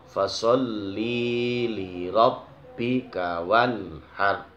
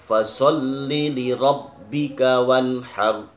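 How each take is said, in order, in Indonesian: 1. Vokal pada 'li' dibaca panjang. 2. Vokal pada 'li' dibaca pendek. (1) "Itu terkadang dibaca panjang. ... Ini yang nggak boleh" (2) "li li rob pendek ... Seperti itu"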